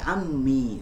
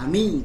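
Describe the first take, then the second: First: The m sound is long and doubled. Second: The m sound is short and single. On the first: The speaker calls it right. "tapi ammi" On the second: The speaker calls it wrong. "bukan ami"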